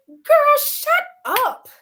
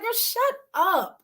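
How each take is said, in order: First: High, loud shriek of disbelief; a loud, high outburst of disbelief at a friend; incredulous "girl, shut up". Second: Put-on slow, higher, dismissive "Girl, shut up"; a slow, raised-pitch brush-off; drawn-out "girl, shut up". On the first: Retold or imitated. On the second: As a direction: stretch "Girl, shut up" out slowly and brush her off. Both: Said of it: "And I said it just like that".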